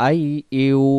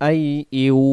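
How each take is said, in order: No difference in how they are said.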